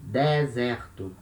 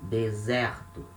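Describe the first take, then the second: First: "deserto" with both e's open, "deh-ZEH-rtu"; regional open vowels. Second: "Deserto" as "day-ZEH-rtu"; closed then open E. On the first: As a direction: open the first e of "deserto" too. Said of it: "with the open sound". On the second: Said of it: "the two sounds of letter E". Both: Shown as a demonstration.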